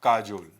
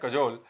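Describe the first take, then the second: First: "काजोल" with a long first "aa"; "काजोल", like the name, long first vowel; memory-trick pronunciation. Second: "कजोल" with a short first vowel; "कजोल", brief "ka" then long "jol"; correct pronunciation. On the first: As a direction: draw out the "kaa" in "काजोल". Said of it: "याद करने के लिए मैं इसका trick बना दे रहा हूँ". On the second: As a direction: clip only the "ka" of "कजोल" short. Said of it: "इसका सही प्रोनंसिएशन है". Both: Shown as a demonstration.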